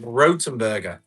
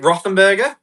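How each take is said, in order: First: The second consonant is a hard 't' sound. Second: The second consonant is a soft 'th' sound. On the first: This is how the company itself says the name. "I heard directly from the company is Rotenberger" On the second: This is how most people read the name. "a lot of people will say Rothenberger"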